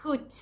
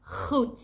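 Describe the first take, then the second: First: Goed with a soft hissed G, higher pitch; Goed, G like an angry cat's hiss; soft Dutch G. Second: Goed opening with a grinding throat G; harsh Dutch G. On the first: Teaching the word good, Goed with soft G. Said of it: "that's the soft G sound". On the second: Demonstrating the other G, goed with harsh G. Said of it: "With this harsh G sound". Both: Shown as a demonstration.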